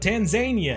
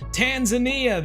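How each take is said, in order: First: The name is said the way Zambians say it. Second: The name is said in the plain, usual way.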